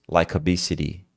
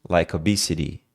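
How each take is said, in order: No difference in how they are said.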